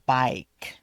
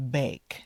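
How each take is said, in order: First: Bike with a clear long I; bike, the right vowel. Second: Bake with an A vowel; wrong vowel. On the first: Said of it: "Make sure you say". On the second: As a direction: say bake as the wrong version of bike. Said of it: "it could sound to someone like". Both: Shown as a demonstration.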